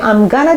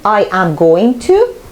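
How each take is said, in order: First: The words are contracted and reduced together. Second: Each word is said fully and separately. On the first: "using the slang form or very, very informal talk" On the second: "instead of saying"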